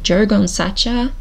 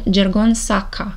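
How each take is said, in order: First: The name is read with an American-style pronunciation. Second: The name is read with a Romanian-style pronunciation. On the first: "in American like" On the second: "if I would read it in Romanian"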